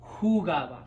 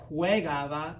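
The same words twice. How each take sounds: First: Jugaba with a pure OO, hoo-GAH-bah, punched louder; correct unchanged stem. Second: Juegaba starting with a WEH glide, hweh-GAH-bah; wrong stem-changed form. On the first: Giving students the correct form, jugaba with a clear "hoo" opening. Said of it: "It's going to be". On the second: Showing students the form to avoid, juegaba pronounced hweh-GAH-bah. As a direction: say juegaba with a stressed-out "hweh" opening. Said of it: "we're not gonna say juegaba". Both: Shown as a demonstration.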